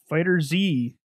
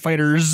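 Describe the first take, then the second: First: It ends with a separately spoken letter Z. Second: It ends with a plural s sound.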